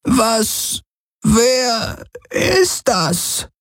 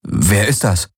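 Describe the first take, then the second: First: High, slow, puzzled alien voice; elder puzzled by the stranger; Kesli voice. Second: Said in the usual way. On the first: A narrator's reading. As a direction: draw out the question, high. Kesli asks about stranger.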